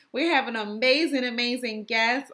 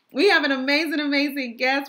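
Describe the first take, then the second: First: "amazing, amazing guest" said while chewing gum. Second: "amazing, amazing guest" said higher and louder, clear of the gum; bright, loud restart on "we have an amazing"; excited. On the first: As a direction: chew gum through "We have an amazing, amazing guest". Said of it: "I got this gum in my mouth". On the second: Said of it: "I'm so sorry, I got this gum". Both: Real, not acted.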